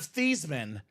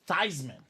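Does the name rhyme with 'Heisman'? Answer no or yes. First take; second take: no; yes. First: The name does not rhyme with Heisman. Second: The name rhymes with Heisman. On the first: This is the family's original pronunciation. "Instead of Thiesman" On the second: This is a new pronunciation chosen for publicity. "So we can go with Theismann for the Heisman"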